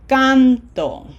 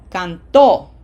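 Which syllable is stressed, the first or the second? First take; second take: first; second. First: The stress is on the first syllable. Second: The stress is on the second syllable. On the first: "Can is emphasized" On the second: "as opposed to the other way would be canto"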